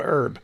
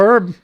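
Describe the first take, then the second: First: Herb said as erb, no H sound; herb pronounced erb, silent H; herb without the H. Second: Herb said with a clear breathy H at the start; herb pronounced hurb, H voiced out. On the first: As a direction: drop the H in herb. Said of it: "other people call it herb". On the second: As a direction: sound the H in herb. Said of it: "Some people call it herb". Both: Shown as a demonstration.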